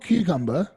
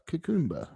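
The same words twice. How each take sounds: First: It is said in his ordinary accent. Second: It is said in a Jamaican-style accent.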